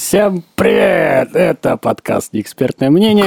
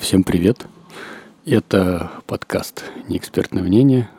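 First: The greeting is said in a cheerful, lively voice. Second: The greeting is said in a sad, flat voice. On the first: The speaker calls it right. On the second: The speaker calls it wrong.

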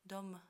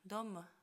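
First: A faint e vowel follows the final m. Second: The same.

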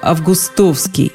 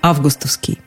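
First: The stress falls on a middle syllable. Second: The stress falls on the first syllable. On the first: "когда ударение в середине слова" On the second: "с ударением на первом слоге"

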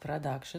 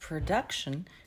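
First: The first syllable has a Russian-style half-reduced 'a'. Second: The first syllable has a reduced, native-like vowel.

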